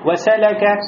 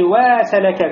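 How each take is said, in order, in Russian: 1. Все гласные короткие, читаются быстро. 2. Гласный после w произносится долго. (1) "Никакой долготы нету. Значит, все читается быстро" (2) "как будто после вау появляется алиф"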